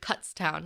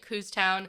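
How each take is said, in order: First: The first syllable sounds like 'cut'. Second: The first syllable has an 'oo' vowel. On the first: The speaker calls it right. "I think it's Kutztown. Like Cut" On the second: The speaker calls it wrong. "which I was calling it Cooztown"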